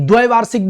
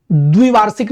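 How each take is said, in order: First: द्वैवार्षिक starting dvai; correct dvai form. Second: द्विवार्षिक starting dvi, short i; incorrect dvi form. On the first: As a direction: open ai vowel in द्वैवार्षिक. (द्वैवार्षिक में ऐ की ध्वनि) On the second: (द्विवार्षिक में छोटी इ) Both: Shown as a demonstration. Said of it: "द्वैवार्षिक बोलेंगे".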